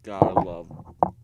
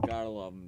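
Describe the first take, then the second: First: Louder and slow, GOTTA leaned on; slow, loud mock slogan; drawn-out loud catchphrase. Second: Said in the usual way. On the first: Shown as a demonstration. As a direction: belt it out slowly like a slogan. Repeats catchphrase in two ways.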